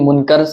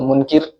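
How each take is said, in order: First: The second syllable has an 'a' vowel. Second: The second syllable has an 'i' vowel. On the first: The speaker calls it right. "मुनकर सही" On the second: The speaker calls it wrong. "मुनकिर मैं कह रहा था वो मेरी गलती थी"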